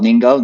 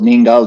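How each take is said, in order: Both takes have the same delivery.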